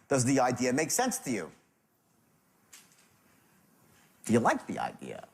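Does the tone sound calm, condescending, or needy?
calm. It is asked in a calm, curious tone.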